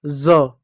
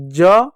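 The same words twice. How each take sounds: First: ज said as "za", with a buzzing z; dotted z sound. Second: ज said as "ja", a hard j; plain j sound. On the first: Teacher contrasting the letter with a dot, z sound. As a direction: say ज with z as in "zoo". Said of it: "जब ज के नीचे बिंदी लग जाती है". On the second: Teacher contrasting the letter without a dot, j sound. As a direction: say ज with j as in "jug". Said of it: "तो ज हो जाता है". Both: Shown as a demonstration.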